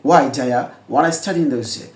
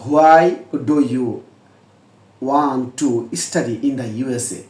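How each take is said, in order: First: The words blend into 'dya wanna'. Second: Every word is pronounced fully and separately.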